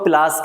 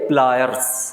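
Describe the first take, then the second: First: The word is clipped, with the r sound dropped. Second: The word is said in full, with the r sound. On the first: The speaker calls it wrong. "जिसको हम प्लास कहते हैं, ये प्लास नहीं होता" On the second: The speaker calls it right. "प्लायर्स होता है"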